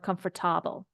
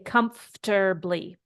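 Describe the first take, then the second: First: The middle syllable keeps a full vowel. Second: The middle syllable is reduced and squeezed. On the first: The speaker calls it wrong. "We don't say comfortable" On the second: The speaker calls it right. "We say comfortably"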